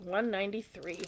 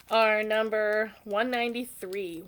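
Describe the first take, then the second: First: "One ninety-three" repeated softer as an aside. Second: Said in the usual way. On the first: Shown as a demonstration.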